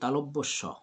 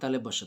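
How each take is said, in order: First: The middle syllable sounds like 'lob'. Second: The middle syllable sounds like 'le'. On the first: The speaker calls it right. "এটা হবে কি তালব্যস্য" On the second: The speaker calls it wrong. "অনেক তালেবস্য, তালেবস্য না"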